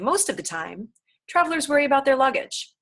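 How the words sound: There is a pause after "time".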